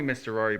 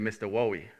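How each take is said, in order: First: The name is said with clear R sounds. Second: The R sounds in the name become W sounds. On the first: "they called me Mister Rory" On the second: "with the younger ones"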